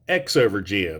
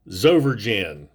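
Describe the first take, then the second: First: The name begins with the letter sound 'ex'. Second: The name begins with a 'z' sound. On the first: "not X-over gen" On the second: "or Zover gen"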